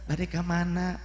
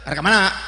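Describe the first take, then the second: First: It is said softly in a flirtatious tone. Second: It is said curtly in a stern tone. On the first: It seems to invite a man's interest. The speaker calls it wrong. "dengan gaya-gaya yang lirih" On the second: It keeps a man at a distance. The speaker calls it right. "judes we"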